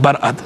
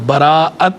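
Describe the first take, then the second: First: It is said short, in two syllables. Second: It is said long, in three syllables. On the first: The speaker calls it wrong. "अच्छे खासे पढ़े लिखे को भी देखते हैं कि वो पढ़ देते हैं" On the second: The speaker calls it right. "बराअत जो है वो हमज़ा अलिफ़ के बाद आएगा"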